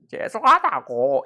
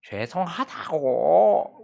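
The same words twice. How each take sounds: First: Louder, drawn-out sob-laugh apology; crying or laughing. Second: Slow, drawn-out apology half crying; tearful apology. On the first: Child apologizes again to mom, between sob and laugh. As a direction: sob and laugh at once while saying sorry. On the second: Child apologizes to mom, half crying, drawn out. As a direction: plead sorry through held-back tears. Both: Retold or imitated. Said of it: "우는 건지 웃는 건지".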